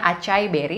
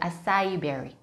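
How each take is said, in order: First: It is read the way Indonesian spelling sounds. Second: It is pronounced with English sounds. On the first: "tulisannya acai berry dalam bahasa Indonesia" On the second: "dalam bahasa Inggris, pronunciation-nya adalah acai berry"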